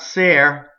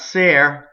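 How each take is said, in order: First: The vowel is followed by an English-like r. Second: The same.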